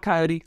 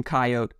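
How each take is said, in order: First: Coyote said ky-OH-tee; three-syllable coyote. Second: Coyote said KY-oat; two-syllable coyote. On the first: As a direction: say Coyote with a final "ee". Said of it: "I call it". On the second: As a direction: say Coyote with no final "ee". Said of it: "My wife calls them". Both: Shown as a demonstration.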